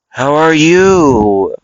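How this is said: It is said in a slow, seductive voice. "Like real seductive"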